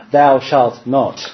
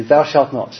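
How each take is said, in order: First: Slow, solemn mock commandment; hammed-up stern father decree. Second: Chuckling through a stern command; half-laughing mock decree. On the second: Parent's command retold, laughing.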